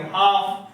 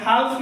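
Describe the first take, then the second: First: "हाफ" with long vowel and no L; silent L. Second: "हाल्फ" with the L sounded; wrong pronunciation. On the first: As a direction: model the correct "हाफ", L dropped. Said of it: "क्या बोलेंगे?". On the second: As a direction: show the mistake "हाल्फ", L before F. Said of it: "हाल्फ नहीं बोलेंगे". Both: Shown as a demonstration.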